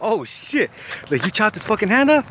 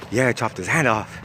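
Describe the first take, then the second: First: High-pitched, astonished question; shocked disbelief. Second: Deadpan confirmation, not raised at all; straight-faced. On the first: Narrator hears of chopped hand, shocked disbelief. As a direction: replay a stunned, incredulous reaction. Retelling his shocked reaction. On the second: Cellmate confirms chopping a hand, straight-faced. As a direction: imitate a matter-of-fact boast. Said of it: "with a straight face". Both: Retold or imitated.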